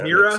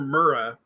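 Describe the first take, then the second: First: The first vowel sounds like 'meer', not 'mer'. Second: The first vowel sounds like 'mer' in mermaid. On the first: "There's only one E. How is it Mira?" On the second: "I grew up calling her Mura because mermaid"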